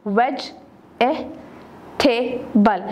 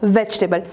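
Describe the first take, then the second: First: Vegetable stretched into four separate syllables. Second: Said in the usual way. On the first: Shown as a demonstration. Teacher showing a four syllable word, Vegetable said syllable by syllable. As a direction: break Vegetable into four, pausing after each. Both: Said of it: "again four syllable word है".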